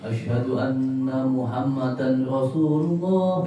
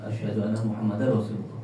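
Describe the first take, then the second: First: The n sound is kept before Rasulullah. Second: The n sound merges into the following r. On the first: "Kayak itu enggak apa" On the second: "Tapi sunahnya"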